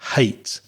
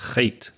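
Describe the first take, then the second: First: The H is a soft breath from the mouth. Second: The H is a rough scrape from the throat. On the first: The speaker calls it right. "with no vibration from the throat, just from the mouth" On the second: The speaker calls it wrong. "You're producing that sound from the throat, so it sounds a little bit like ch"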